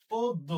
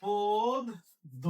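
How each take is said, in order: First: Said in the usual way. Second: পদ্য stretched out slowly; slow dictation. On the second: Shown as a demonstration. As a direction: drag out পদ্য for writing. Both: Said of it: "লিখবো কি?".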